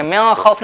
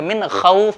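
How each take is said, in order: First: मिन खौफ with the N blurred into a nasal vowel; wrong nasalized reading. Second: मिन खौफ with a clear N before खौफ; careful मिन खौफ, N distinct; correct izhar reading. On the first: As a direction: hum through मिन straight into खौफ. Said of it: "मिन खौफ नहीं पढ़ेंगे". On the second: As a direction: sound the noon of मिन fully, no hum. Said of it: "बल्कि मिन खौफ पढ़ेंगे". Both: Shown as a demonstration.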